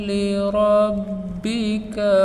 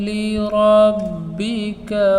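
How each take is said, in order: The two takes are said the same way.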